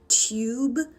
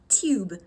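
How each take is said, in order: First: The vowel has a y-glide, like 'tyoob'. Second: The vowel is a plain 'oo', like 'toob'. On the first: "in a British accent, you have a liquid U" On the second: "instead of"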